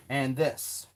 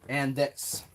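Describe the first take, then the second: No difference in how they are said.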